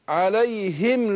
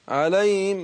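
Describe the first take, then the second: First: The h sound is clearly articulated. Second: The h sound is weak and nearly lost. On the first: The speaker calls it right. "شفت حققت الهاء إزاي؟" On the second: The speaker calls it wrong. "كده الهاء راحت"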